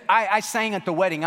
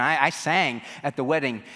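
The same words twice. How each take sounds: First: Higher, louder, stammering protest; flustered protest. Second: Said in the usual way. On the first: Retold or imitated. Guest protesting to the doorman, flustered and higher. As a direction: plead her case, rattled.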